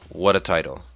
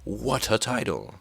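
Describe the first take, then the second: First: It is said flatly. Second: It is said enthusiastically.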